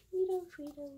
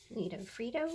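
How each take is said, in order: First: Higher, playful sing-song take on Nito Frito. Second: Said in the usual way. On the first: Acted. Crafter repeating a funny label in a playful high voice.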